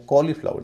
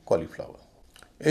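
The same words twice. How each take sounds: First: कॉलीफ्लावर opened with a long aw. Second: कॉलीफ्लावर with a short first o. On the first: Teacher summing up the mistake, long o in कॉलीफ्लावर. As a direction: lengthen the first vowel of कॉलीफ्लावर. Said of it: "नहीं कहें". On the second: Teacher summing up the correct word, short o in कॉलीफ्लावर. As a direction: clip only the first vowel of कॉलीफ्लावर. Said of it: "एयू का उच्चारण छोटा होता है". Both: Shown as a demonstration.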